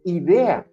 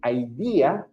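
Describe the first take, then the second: First: It is pronounced with Spanish vowel sounds. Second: It is pronounced with English vowel sounds. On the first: "in Spanish" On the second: "in English"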